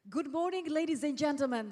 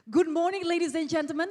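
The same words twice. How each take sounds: First: It is said in a calm, plain way. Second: It is said with lively, spirited energy.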